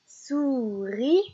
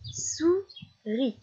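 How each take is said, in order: First: "souris" stretched in one piece, rising at the end; joined, last syllable lifted. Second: "Souris" as two beats with a clear pause; split into syllables. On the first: Teacher rejoining the word for a child, "souris" gliding upward. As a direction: glide through "souris" up onto "ris". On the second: Teacher helping a child spot the last syllable, "Souris" split apart. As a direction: separate "Souris" into sou... ris. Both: Shown as a demonstration. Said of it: "repérer ces dernières syllabes".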